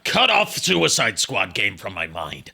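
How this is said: It is said in a hissing snake voice.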